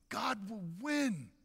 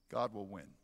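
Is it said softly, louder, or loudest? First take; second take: loudest; softly. First: It is said at the loudest level. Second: It is said at the softest level.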